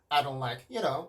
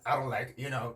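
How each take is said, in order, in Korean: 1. 'you know'에서 음높이가 높게 올라갑니다. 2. 'you know'에서 음높이가 낮게 유지됩니다. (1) "이렇게 톤이 올라와 주게 되는데" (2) "이렇게 나오는 것보다는"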